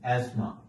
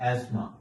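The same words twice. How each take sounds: First: The 'th' sound is left out entirely. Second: The 'th' sound is left out entirely.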